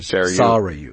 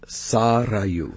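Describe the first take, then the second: First: The R is plain, not rolled. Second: The R is rolled. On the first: The speaker calls it wrong. "Mac will not roll the R" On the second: The speaker calls it right. "the R is rolled"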